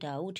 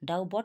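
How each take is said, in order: First: No 'b' sound is heard in the word. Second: A 'b' sound is heard in the word. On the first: The speaker calls it right. "কিন্তু কি বলছি ডাউট" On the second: The speaker calls it wrong. "ডাউ বট বলছি না"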